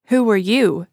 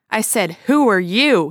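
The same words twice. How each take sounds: First: Short, louder and clipped question; curt. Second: Louder bellow, WHO punched. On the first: Stranger curtly returns Ed's question, unimpressed. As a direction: turn the question back coldly. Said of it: "the stranger asked curtly". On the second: Ed bellows his question again at the stranger, furious. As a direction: bellow it, spitting with rage. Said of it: "he bellowed". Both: Acted.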